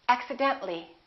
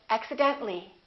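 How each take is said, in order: Both takes have the same delivery.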